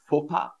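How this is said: It is said with a French accent. "if I want to sound more French, I would say faux pas"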